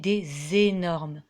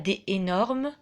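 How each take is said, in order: First: The S sound links des to énormes. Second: No S sound links des to énormes. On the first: The speaker calls it right. "j'ai fait une liaison entre le S de des et le E de énorme" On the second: The speaker calls it wrong. "Je ne dis pas des énormes"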